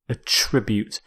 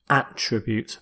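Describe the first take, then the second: First: The stress is on the second syllable. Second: The stress is on the first syllable.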